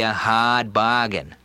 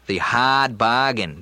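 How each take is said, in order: First: Slow Boston "hard bargain" with dropped r, hahd bahgain; JFK Boston accent. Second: Slow Kennedy-style "hard bargain" with no r; JFK Boston accent. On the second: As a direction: hahd bahgain, Boston style. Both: Shown as a demonstration. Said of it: "the Boston accent there hit me".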